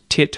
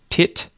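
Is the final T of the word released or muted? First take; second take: muted; released. First: The final T is held and not released. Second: The final T is clearly released. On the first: "you don't have to say that T at the ends of these words, and instead you can mute them" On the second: "You can say the final T in these words"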